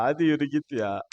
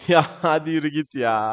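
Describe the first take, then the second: First: Said in the usual way. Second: Laughing it out, louder. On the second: Real, not acted. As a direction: cheer him on through a laugh. Laughing at a run on goal. (gülerek, daha yüksek sesle)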